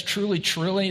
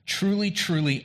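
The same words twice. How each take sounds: First: Said in the usual way. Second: Truly, truly said with strong stress, a higher start and a falling end; with an exclamation point. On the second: Shown as a demonstration. Preacher voicing Jesus to Nicodemus, Truly, truly proclaimed emphatically. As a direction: hit both words Truly, truly like an exclamation. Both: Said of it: "This is me speaking with an exclamation point".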